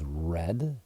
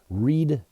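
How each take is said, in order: First: The vowel is short, like 'red'. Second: The vowel is long, like 'reed'. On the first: It is the past tense. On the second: It is the present tense.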